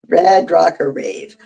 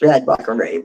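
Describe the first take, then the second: First: The phrase is said at a normal speed. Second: The phrase is said quickly, like a tongue twister.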